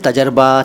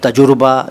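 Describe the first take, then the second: First: The middle is said as tajar-ba, two syllables. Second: The middle is said as tajur-ba, with u vowel. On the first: "ये दोनों गलत हैं" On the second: "ये दोनों गलत हैं"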